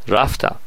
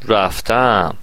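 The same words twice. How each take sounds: First: The stress is on the first syllable. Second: The stress is on the second syllable. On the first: It is the simple past. "من مثلا گذشته رو میگم" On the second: It is the present perfect. "شما باید ماضی نقلی بگید"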